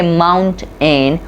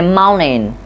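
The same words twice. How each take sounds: First: The T is a clear T sound. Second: The T is replaced by a glottal stop. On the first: The speaker calls it wrong. "We don't say mountain" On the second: The speaker calls it right. "On the place of T, we use the glottal stop"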